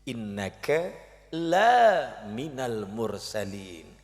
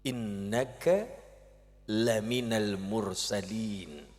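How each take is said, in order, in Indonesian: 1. Vokal dalam 'la' panjang. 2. Vokal dalam 'la' pendek.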